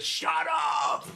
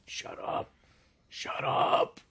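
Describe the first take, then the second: First: High, full-out shout; sudden outburst. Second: Harsh whisper building in force; whispering to himself. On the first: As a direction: shout it to silence the voices. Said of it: "and he says". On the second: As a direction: whisper it to yourself, pushing harder the second time. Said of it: "beginning to whisper to himself". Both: Acted.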